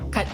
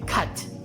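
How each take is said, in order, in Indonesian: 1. Kata itu berakhir dengan bunyi T biasa. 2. Kata itu berakhir dengan bunyi TH berhembus. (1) "sebutannya adalah T saja" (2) "Bukannya T H ya"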